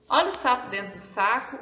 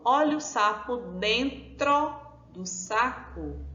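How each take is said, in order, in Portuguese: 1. É dita muito depressa, com as palavras emendadas. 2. É dita num ritmo normal, sem pressa.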